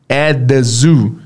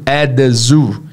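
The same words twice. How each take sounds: No difference in how they are said.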